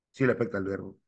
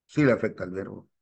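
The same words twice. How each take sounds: The two takes are said the same way.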